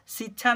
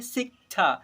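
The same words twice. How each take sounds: First: "शिक्षा" as si-chhaa, k dropped; wrong reading without k. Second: "शिक्षा" as sik-chhaa, k audible; k sounded. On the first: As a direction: leave out the क sound in "शिक्षा". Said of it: "शिक्षा नहीं". ("शिक्षा" को क छोड़कर, सिछा बोलें) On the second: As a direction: close the first syllable of "शिक्षा" on क. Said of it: "क की भी उच्चारण करेंगे". ("शिक्षा" में क साफ़ सुनाएँ, सिक-छा) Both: Shown as a demonstration.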